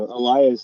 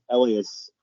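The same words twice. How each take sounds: First: Elias as ee-LYE-us; long-i pronunciation. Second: Elias as ELL-ee-us; first-syllable stress. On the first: Co-host backing the host's cooler version, long-i pronunciation. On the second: Co-host contrasting the less cool version, first-syllable stress. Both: Shown as a demonstration. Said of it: "sounds much cooler than".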